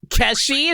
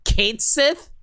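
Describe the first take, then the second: First: The name is said as one word, Keshi. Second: The name is said as two words, Kate Sith. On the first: The speaker calls it wrong. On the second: The speaker calls it right.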